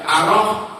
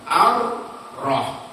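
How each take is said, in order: First: The r sound is single and short. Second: The r sound is doubled and held. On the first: The speaker calls it wrong. "berarti kan sukunnya nggak ada" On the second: The speaker calls it right. "alif roh sukun sama roh patah"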